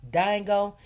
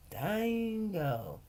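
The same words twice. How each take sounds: First: Dingo said DYE-ngo, long I; imitating customers saying Dingo with a long I; customers' version of Dingo. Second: Dingo said softly, DYE-ngo with long I; name as it should sound. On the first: Customers at the truck saying the name, long I. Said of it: "everybody would say". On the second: Shown as a demonstration. Vendor showing viewers how Dingo is said. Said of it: "D I N E G O".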